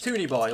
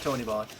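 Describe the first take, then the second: First: The first syllable rhymes with 'cartoon'. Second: The first syllable does not rhyme with 'cartoon'. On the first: The speaker calls it right. "like a cartoon" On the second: The speaker calls it wrong. "It's not not Tony Boy"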